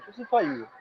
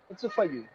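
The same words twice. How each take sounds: First: The word for is said in full. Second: The word for is reduced to weak form. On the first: The speaker calls it wrong. "They don't say" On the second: The speaker calls it right. "weak form"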